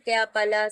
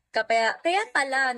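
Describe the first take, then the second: First: Said in the usual way. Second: "Kaya, kaya pala" said slowly, words stretched; drawn out. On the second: Real, not acted. Streamer teasing a chatter, slow drawn-out realization.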